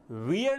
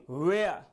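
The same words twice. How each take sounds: First: वियर said as common Indian "veer"; the mistaken वियर, as many in India say it; wrong pronunciation. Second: वेयर said like English "wear", rhyming with "air"; teacher's correct वेयर, vowel as in "air"; correct pronunciation. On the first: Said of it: "इस word का right pronunciation वियर नहीं". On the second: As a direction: model वेयर the right way, as "wear". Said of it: "इस word का right pronunciation". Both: Shown as a demonstration.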